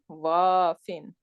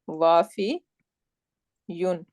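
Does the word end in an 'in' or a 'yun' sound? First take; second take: in; yun. First: The word ends with a short 'in' sound. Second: The word ends with a full 'yun' syllable. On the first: The speaker calls it right. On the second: The speaker calls it wrong.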